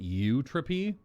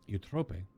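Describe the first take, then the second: First: The name ends in 'tropee', rhyming with entropy. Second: The name ends in a one-syllable 'trope' sound. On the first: The speaker calls it right. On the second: The speaker calls it wrong.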